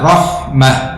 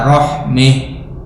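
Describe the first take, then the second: First: The vowel before final h is an open a. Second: The vowel before final h leans toward e. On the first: The common reading with fathah. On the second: One reciter's reading with imalah when pausing.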